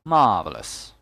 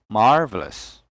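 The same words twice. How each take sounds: First: "Marvelous" with silent R, stressed first syllable; British pronunciation. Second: "marvelous" with the R sounded; American pronunciation. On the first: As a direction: say "Marvelous" as British "MAH-velous". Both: Shown as a demonstration. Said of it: "American English has the R sound".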